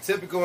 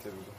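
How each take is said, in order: First: Higher, louder sassy "Typical"; imitating Rosie. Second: Soft, low muttered "Typical"; imitating Rosie. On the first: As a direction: toss off "Typical" with attitude. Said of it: "She was, like". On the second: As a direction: say "Typical" quietly under your breath. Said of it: "and she was like".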